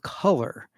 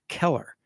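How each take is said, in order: First: The first vowel sounds like the 'u' in cup. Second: The first vowel sounds like the 'e' in Keller. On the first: The speaker calls it right. "its word is color" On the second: The speaker calls it wrong. "He used the word Keller, like Helen Keller"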